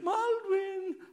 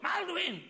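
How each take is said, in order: First: It sounds sweet and coaxing, like a request. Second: It sounds urgent and alarmed, like an emergency.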